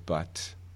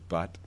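First: The final t is released with a puff of air. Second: The final t is released without a puff of air. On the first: "The aspirated form is" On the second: "The unaspirated form is"

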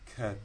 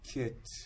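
First: The vowel is a central 'uh' sound. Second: The vowel is a short lax 'i' sound.

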